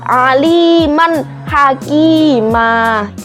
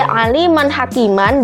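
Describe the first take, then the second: First: The last word ends with a lengthened a. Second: The last word ends with a nasal -an. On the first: It is read this way when stopping at the pause. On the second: It is the written form, read without stopping.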